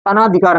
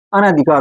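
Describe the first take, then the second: First: अनाधिकार with long aa after n; incorrect pronunciation. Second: अनाधिकार with short a after n; correct pronunciation. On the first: Teacher showing students the mistaken word, incorrect pronunciation. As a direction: say अनाधिकार as a-naa-dhi-kaar. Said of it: "अनाधिकार नहीं होता". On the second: Teacher correcting the mistaken word for students, correct pronunciation. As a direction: say अनाधिकार as a-na-dhi-kaar. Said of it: "अनाधिकार होता है". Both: Shown as a demonstration.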